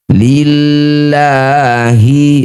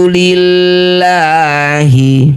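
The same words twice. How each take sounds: First: The L sound is light and thin. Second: The same.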